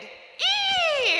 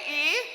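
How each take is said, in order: First: It sounds excited. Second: It sounds neutral.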